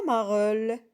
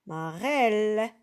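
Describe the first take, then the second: First: "marelle" said with "eu", like "mareulle"; "marelle" with the wrong muffled second vowel; wrong reading. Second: "marelle" said slowly with an open "è", like "marèlle"; "marelle" drawn out with a clear open "è"; correct reading. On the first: Teacher to pupils, showing the mistake: "marelle" as "mareulle". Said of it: "On dit pas". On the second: Teacher to pupils, modelling the right sound: a slow "marèlle". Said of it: "on dit marelle". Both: Shown as a demonstration.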